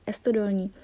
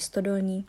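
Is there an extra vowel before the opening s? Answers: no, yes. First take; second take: yes; no. First: An added e vowel comes before the st cluster. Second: The word begins directly with the st cluster. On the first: "nejsou schopní španělští studenti na Erasmu vyslovit a říkají Estodolní" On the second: "která se jmenuje Stodolní"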